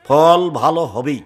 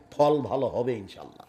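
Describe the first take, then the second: First: ফল ভালো হবেই slow and firm on হবেই; ফল ভালো হবেই, hammer it slowly; emphatic. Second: ফল ভালো হবে said low and soft with a laugh; ফল ভালো হবে murmured low through a laugh; soft chuckling. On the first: (দৃঢ়ভাবে ধীরে ফল ভালো হবেই) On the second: (হাসতে হাসতে নিচু গলায় ফল ভালো হবে) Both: Shown as a demonstration.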